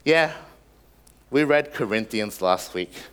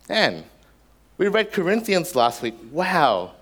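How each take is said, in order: First: It is said casually, without much feeling. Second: It is said with awe and amazement.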